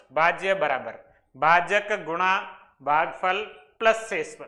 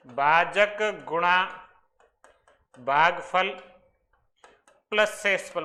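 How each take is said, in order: First: Said in the usual way. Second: Very slow, each term set apart by long pauses; slow dictation. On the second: Shown as a demonstration. Teacher dictating an important formula to students, very slowly. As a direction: drop one word at a time so students can write it. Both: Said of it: "बहुत important formula ये".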